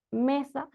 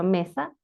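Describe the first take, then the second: First: Said in the usual way. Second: Mesa split as me-sa with a break between syllables. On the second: Shown as a demonstration. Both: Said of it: "dividido en, eh, las sílabas".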